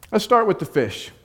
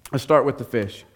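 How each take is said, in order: First: "start" lifted higher, announcing; upbeat start. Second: Said in the usual way. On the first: Shown as a demonstration. Preacher launching the first point, "start" sung out high. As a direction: kick off brightly on "start". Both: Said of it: "let's see if we can address".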